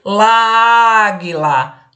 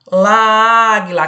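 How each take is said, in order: First: Láguila said as one fused word; wrong form láguila. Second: Láguila repeated louder and slowly; wrong form láguila, stressed. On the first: Teacher showing students the wrong form láguila. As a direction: run the article into águila as láguila. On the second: Teacher stressing the wrong form láguila to students. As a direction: lean hard on láguila to show the clash. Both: Shown as a demonstration. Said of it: "eu não posso dizer láguila".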